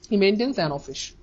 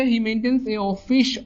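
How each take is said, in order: First: Very slow, words spaced, "an" linked into office; slow corrected read-out. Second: Very slow, each word spaced, with "a" before office; slow sentence read-out. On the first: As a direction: read the fixed sentence slowly, word by word. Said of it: "এখানে কি হবে? ... এন হবে". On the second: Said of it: "অ হচ্ছে Bhawal sound". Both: Shown as a demonstration.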